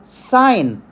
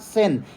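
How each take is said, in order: First: The word has a long vowel, like 'sign'. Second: The word has a short vowel, like 'sin'. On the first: The speaker calls it right. "which is called sine" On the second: The speaker calls it wrong. "It is not sin"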